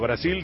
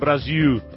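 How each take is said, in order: First: The final l is said as a clear L sound. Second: The final l is said as a U sound.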